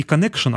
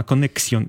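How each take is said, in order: First: "Connection" said the English way, kuh-NEK-shun; "Connection" with an English -shun ending; English pronunciation. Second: "Connexion" with x as ks, French ending -syon; "Connexion" said the French way, kon-nek-SYON; French pronunciation. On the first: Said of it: "именно не Connection". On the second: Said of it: "а Connexion". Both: Shown as a demonstration.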